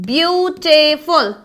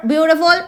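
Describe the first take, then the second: First: Very slow "beautiful", split beau-ti-ful; syllable by syllable. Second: Said in the usual way. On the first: Shown as a demonstration. Teacher showing adjectives of more syllables, syllable by syllable. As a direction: stretch "beautiful" into three separate beats.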